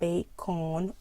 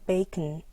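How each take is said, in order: First: The second vowel is a full, unreduced vowel. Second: The second vowel is a relaxed, reduced schwa. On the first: The speaker calls it wrong. "not bacon" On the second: The speaker calls it right. "relax your mouth. Like when you say bacon"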